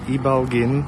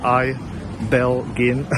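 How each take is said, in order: First: The name is said with its local pronunciation. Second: The name is said with an English pronunciation.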